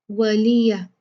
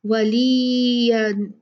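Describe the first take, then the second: First: वलिया with the या stretched long; the wrong way, वलिया drawn out; wrong pronunciation. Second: वलिया very slow, the ली and या kept short; correct pronunciation. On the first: (गलत उच्चारण, वलिया लंबा खींचकर) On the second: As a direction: say वलिया without lengthening. (सही उच्चारण, वलिया बिना खींचे) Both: Shown as a demonstration. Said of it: "वलिया नहीं होगा".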